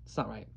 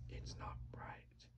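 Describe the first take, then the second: First: Said in the usual way. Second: Slow unvoiced whisper. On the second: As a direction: breathe it as a secret.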